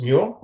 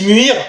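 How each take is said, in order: First: The name is said with an English pronunciation. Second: The name is said with a French pronunciation. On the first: "je sais que ça se prononce Muir" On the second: "je dis Muir bêtement"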